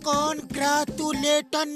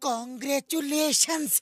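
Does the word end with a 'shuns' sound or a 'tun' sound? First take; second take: tun; shuns. First: The word ends with a plain 'tun' sound. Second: The word ends with a 'shuns' sound. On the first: The speaker calls it wrong. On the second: The speaker calls it right.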